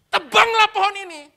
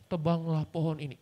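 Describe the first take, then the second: First: It is read forcefully like an exclamation. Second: It is read flatly without emphasis. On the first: The speaker calls it right. "Tekan, tuh, tuh. ... Gitu bacanya. Tanda seru kok" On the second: The speaker calls it wrong. "Kurang pantas cara bacanya"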